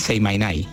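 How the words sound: The phrase is said with Andalusian dropped consonants.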